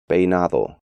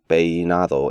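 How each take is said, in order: First: The diphthong glides smoothly like English long A. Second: The E is overstressed, pulling the diphthong apart. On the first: The speaker calls it right. "the more accurate pronunciation" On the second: The speaker calls it wrong. "emphasize the E"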